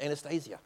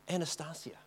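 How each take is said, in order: First: Anastasia as an-a-STAY-zee-a, stress on STAY; corrected pronunciation. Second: Anastasia with a short a, an-a-STAS-ia; first pronunciation. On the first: Correcting himself before the audience, Anastasia as an-a-STAY-zee-a. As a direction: say Anastasia with a long a, an-a-STAY-zia. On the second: Repeating her name to the audience, Anastasia said an-a-STAS-ee-a. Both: Shown as a demonstration. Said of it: "sorry, Anastasia".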